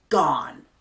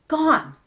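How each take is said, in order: First: Said in the usual way. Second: "Gone" jumps up high and lands hard; emphatic repeat. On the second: Shown as a demonstration. Preacher insisting her old hurts are gone, "Gone" stressed high and falling. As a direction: stamp "Gone" down high, then let it fall.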